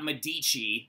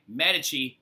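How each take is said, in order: First: The stress is on the second syllable. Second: The stress is on the first syllable. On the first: The speaker calls it wrong. "not Medici" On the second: The speaker calls it right. "it's Medici, okay?"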